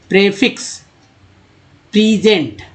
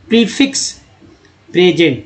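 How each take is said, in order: First: Prefix starts with 'preh', present with 'pree'. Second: Prefix starts with 'pree', present with 'preh'. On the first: The speaker calls it wrong. "अब यहाँ मैं गलत पढ़ता हूँ" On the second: The speaker calls it right. "फिर मैं पलट के पढ़ूंगा"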